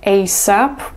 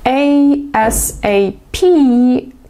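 First: It is said as a single word. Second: Each letter is said separately.

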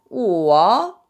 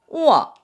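First: It is said with the third tone. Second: It is said with the fourth tone. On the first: "3성은" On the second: "4성은"

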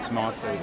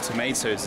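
First: It is said with a British pronunciation. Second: It is said with an American pronunciation.

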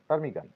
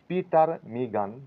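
First: The word begins directly with a t sound. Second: The word begins with an audible p sound. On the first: The speaker calls it right. "পিটা silent থাকবে, এখানে বলবো টার্মিগান" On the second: The speaker calls it wrong. "পিটার মিগান নয়"

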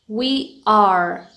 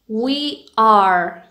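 No difference in how they are said.

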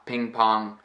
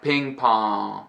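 First: The final consonant is closed off, not released. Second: The final consonant is released openly. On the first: The speaker calls it right. "with the back of the tongue and the back of the throat, where I really am closing off my mouth" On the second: The speaker calls it wrong. "It's not like"

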